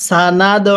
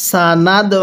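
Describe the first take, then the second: No difference in how they are said.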